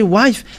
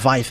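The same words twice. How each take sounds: First: The word begins with a W sound. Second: The word begins with a V sound. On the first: "But if you say wife, ah, they're uh, taking it as something else" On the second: "they uh, pronounce it uh, wife"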